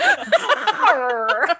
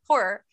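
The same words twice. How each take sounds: First: The R sounds are forced out with effort. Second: It sounds like whore, in a Maryland accent.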